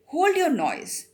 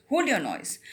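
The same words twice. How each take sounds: First: Slow, louder, high threatening growl; terrible voice. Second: Said in the usual way. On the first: Retold or imitated. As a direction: play the convict scaring the boy. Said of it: "he heard a terrible voice". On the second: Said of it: "शांत हो जाओ".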